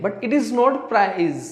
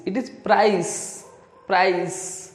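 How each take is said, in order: First: Not hit hard, very slow correction; slowly, leaning on not to correct them; stress on not. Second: Price said very slowly with a clear आई glide, "praiss"; careful price. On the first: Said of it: "वो इसे price बोलते हैं". (not पर ज़ोर देकर धीरे-धीरे) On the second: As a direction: drag out price with the full diphthong. (price को धीरे और साफ़ आई के साथ) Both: Shown as a demonstration.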